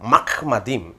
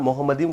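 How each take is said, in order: First: The first syllable sounds like mah. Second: The first syllable sounds like mu. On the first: The speaker calls it right. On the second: The speaker calls it wrong.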